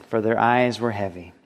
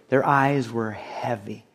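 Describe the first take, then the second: First: Said in the usual way. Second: Slow, softer "Their eyes were heavy"; slow, weighty emphasis. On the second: Shown as a demonstration. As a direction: let "heavy" drag, soft and low. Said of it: "think about that phrase".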